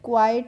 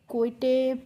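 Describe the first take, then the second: First: The ending sounds like 'ite' with long i. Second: The ending sounds like 'itay' with short i. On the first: The speaker calls it right. "इस तरीके से पढ़ेंगे" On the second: The speaker calls it wrong. "इस तरीके से आपको नहीं पढ़ना है"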